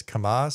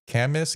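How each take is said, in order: First: "Camas" stressed on the second syllable; kuh-MAHS, second guess at "Camas"; trying another pronunciation. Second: "Camas" stressed on the first syllable; CAM-us, first guess at "Camas"; trying a pronunciation. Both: Shown as a demonstration. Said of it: "not sure how that's pronounced".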